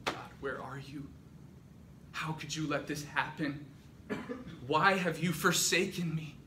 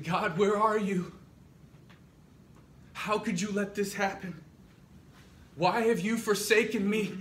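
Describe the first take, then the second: First: Restrained plea, building in force; anguished questioning. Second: Loud, high, full-voiced outcry; anguished cry to God. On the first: Acted. Captured believers thinking toward God before martyrdom, anguish building. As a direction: question God, starting subdued and rising. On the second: Abraham looking up at the sky, shouting in anguish.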